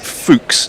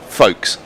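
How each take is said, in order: First: The name sounds like 'fooks'. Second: The name sounds like 'folks'. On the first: This is how the speaker would pronounce it. "I want to pronounce this Fuchs" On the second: This is how everyone else pronounces it. "not Folks"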